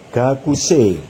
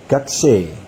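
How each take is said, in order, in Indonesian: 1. Huruf u setelah k jelas diucapkan. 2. Huruf u setelah k dihilangkan. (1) "contoh kata gakuse" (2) "Ini bisa dibaca gakse"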